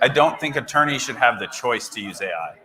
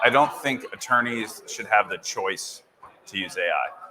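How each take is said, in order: First: It is said more loudly. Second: It is said at normal volume.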